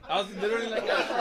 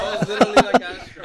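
First: Laughing through the words; giggling while telling it. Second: Much louder, cracking up; loud laughing. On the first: Laughing while retelling reaction. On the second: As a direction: burst out laughing through it. Repeated, louder through laughter. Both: Real, not acted.

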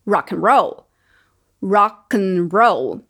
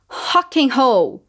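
First: Rock and roll with an English R, stress on roll; English pronunciation. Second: Rock and roll with a guttural Brazilian R, slow; Portuguese pronunciation. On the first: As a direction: rock and roll as ɹɑk ən ɹoʊl. (rock and roll com R inglês) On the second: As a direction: Rock and roll as hɑk ɪn hoʊ. (Rock and roll com R português) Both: Shown as a demonstration. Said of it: "pra gente notar essa diferença".

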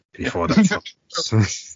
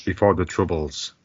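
First: Slow, higher Irish accent. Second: Said in the usual way. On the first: Shown as a demonstration.

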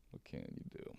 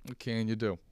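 First: Whispered "What can you do?" with no voice. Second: Said in the usual way. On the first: Acted. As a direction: breathe it out as a secret. Whispered aside, then repeated.

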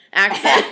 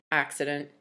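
First: Said in the usual way. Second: "Accident." said for accent, lower and softer; slip of the tongue. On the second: Real, not acted. Mother trips over the word accent, saying "Accident.".

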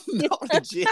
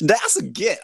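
First: Gif said with a soft G, like jif; gif said as jif, high and laughing. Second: Gif said with a hard G, like gift; gif with hard G, laughing. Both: Shown as a demonstration.

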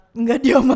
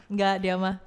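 First: "Nggak, dia mah" said loudly; emphatic repeat. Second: Said in the usual way. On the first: Real, not acted. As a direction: insist on "Nggak, dia mah" with more force. Same denial repeated louder. ("Nggak, dia mah" ditegaskan dengan suara keras)

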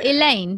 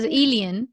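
First: Said in the usual way. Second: "Elian" said as EE-lee-un; "Elian" in three syllables, rhyming with "alien"; imitated accent pronunciation. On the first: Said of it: "that it spelled Elaine". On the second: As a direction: copy her twangy "Elian", ending "-ian". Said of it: "but when you said it".

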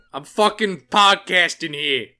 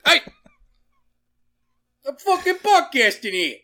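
First: Loud New York gripe, pitch moderately raised; put-on indignant New Yorker, punching the words; New York accent. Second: High, loud New York yell; New York accent. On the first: Comic telling off New York critics, loud New York accent. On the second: Acted. Podcaster telling off an intruder, shouted high in New York accent. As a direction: holler it like an outraged cartoon New Yorker. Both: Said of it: "my New York accent was bad".

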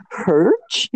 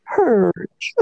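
First: "Hurch?" grunted with a questioning rise; quizzical Hurch. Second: "Hurch." grunted, falling, beaten; defeated Hurch. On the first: Retold or imitated. Friend mimics the classmate's puzzled "Hurch?" grunt. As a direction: ask it as a one-word grunt. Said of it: "he just says Hurch in different, uh, tones". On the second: Shown as a demonstration. Friend demos the classmate's defeated "Hurch." grunt. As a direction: let "Hurch." sag like a loser.

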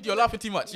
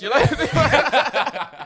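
First: Laughing through the words; giggling while scolding. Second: Drawn out slowly through laughter; slow laughing. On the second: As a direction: stretch it out, laughing hard. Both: Real, not acted. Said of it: "why are you laughing".

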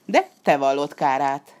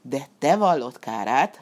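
First: Fox's warning. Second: Cat repeating the fox with a growl; cat's grumble. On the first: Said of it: "szólt a róka". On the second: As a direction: grumble it back under your breath. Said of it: "morogta utána a kandúr". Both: A narrator's reading.

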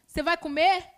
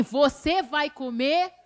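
First: Said in the usual way. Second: "Você" stretched and stressed, slow rising question; a slow, pointed "Você" that makes the offer feel like a test; loaded question. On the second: Retold or imitated. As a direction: drag out "Você vai comer?" with a pointed rise on "Você". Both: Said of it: "Mas já fala assim".

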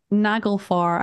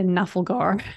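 First: "Naglfar" said as nag-ul-far, the g before the l; careful "Naglfar" with nag-ul-far; Naglfar said right. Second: "Nafalgar" with the l and g swapped, na-fal-gar; wrong Nafalgar. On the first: Correcting herself while explaining the boss ship, careful "Naglfar". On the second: Admitting her habitual slip to co-host, "Nafalgar" na-fal-gar. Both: Shown as a demonstration. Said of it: "I keep going to say Nafalgar".

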